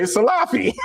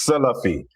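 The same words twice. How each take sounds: First: "Salafi" as suh-LAH-fee, higher, big middle vowel; own southern pronunciation. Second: "Salafi" as SEL-uh-fee, first syllable stressed; up-north pronunciation. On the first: Shown as a demonstration. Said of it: "I don't talk like that". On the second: Retold or imitated. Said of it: "That's how they talk up north".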